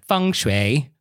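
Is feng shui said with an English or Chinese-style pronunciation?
Chinese-style. It is said with an exaggerated Chinese-style pronunciation. The speaker calls it wrong. "I'm not going to be like feng shui"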